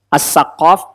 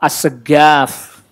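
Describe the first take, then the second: First: The middle consonant is a deep back 'q'. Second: The middle consonant is a hard 'g'. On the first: This is the original form. The speaker calls it right. "Itu aslinya as-saqaf itu" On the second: This is the dialect form used in Indonesia. The speaker calls it wrong. "bukan as-segaf. Orang Indonesia bilangnya as-segaf"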